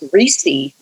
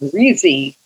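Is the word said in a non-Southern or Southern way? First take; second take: non-Southern; Southern. First: The word has a non-Southern pronunciation. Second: The word has a Southern-style pronunciation. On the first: This is how the speaker herself says it. "I said greasy" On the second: This is how a family member from the South says it. "like my mother did"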